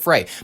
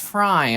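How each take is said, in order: First: The name rhymes with the word day. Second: The name rhymes with the word die. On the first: It follows the way the name is spelled. "His last name is spelled F R E Y ... Pronounce it Frey" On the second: It is how the name's owner wants it said. "no, it's Fry ... like the guy from what Philip J. Fry"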